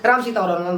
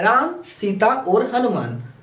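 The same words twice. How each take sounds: First: The names run together without pauses. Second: Short pauses separate each name.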